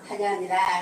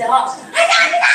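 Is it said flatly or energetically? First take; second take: flatly; energetically. First: It is said flatly, with little energy. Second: It is said loudly, with lots of energy.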